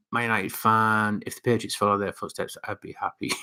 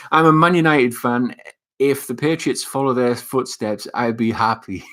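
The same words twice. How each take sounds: First: Softer, trailing read-out; quiet reading. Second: Emphatic reread. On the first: Vlogger reading a fan's comment, quietly. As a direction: read it softly, fading toward the end. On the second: Rereads comment after "It's Boogie. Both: Real, not acted.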